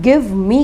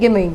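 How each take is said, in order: First: Both words are said fully, with a clear v. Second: The words run together as gimme, without v.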